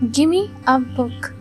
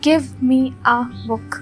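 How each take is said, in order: First: Give me is blended into one word, gimme. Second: Give and me are said as separate words. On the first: "you can say gimme" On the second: "Instead of saying give me a book"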